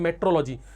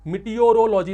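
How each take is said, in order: First: The word is said in a short, reduced form. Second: The word is said in its full, longer form. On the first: It is easier to say. "Simple बोलने में अच्छा लगता है" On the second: It is harder to say. "इसमें पूरी जीभ लड़खड़ा जाती है"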